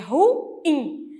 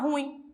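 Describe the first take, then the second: First: The word is said as two syllables. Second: The word is said as one syllable. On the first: The speaker calls it right. "um dissílabo oxítono" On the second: The speaker calls it wrong. "como se essa palavra tivesse uma única sílaba"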